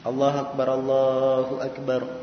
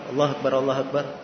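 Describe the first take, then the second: First: It is said slowly with a gap between phrases. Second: It is said quickly with little gap between phrases. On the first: This is the unhurried pace for the call to prayer. "maksudnya pelan-pelan adzannya... ada jarak" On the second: This is the hurried pace. "Ini namanya segera"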